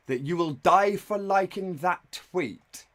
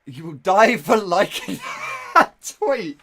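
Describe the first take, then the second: First: Slow, drawn-out disbelieving read of the threat; mock dramatic read. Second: Loud, higher, cracking up mid-line; laughing shout. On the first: Streamer reading the boyfriend's text aloud, slow and incredulous. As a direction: spell it out slowly like you can't believe it. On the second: Real, not acted. Streamer repeating the boyfriend's threat, loud and cracking up. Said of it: "I'm laughing at how you can talk".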